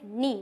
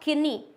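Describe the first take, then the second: First: The word starts with an n sound, no k. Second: The word starts with an audible k sound. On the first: The speaker calls it right. "के हमारा silent होता है" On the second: The speaker calls it wrong. "Not किनी"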